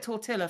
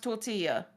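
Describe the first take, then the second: First: Tortilla is pronounced the English way. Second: Tortilla is pronounced the Spanish way. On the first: It is meant to annoy the listener. The speaker calls it wrong. "I'm going to call it tortilla from now on, just to annoy you" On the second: It is the proper pronunciation. The speaker calls it right. "we do know how to pronounce tortilla"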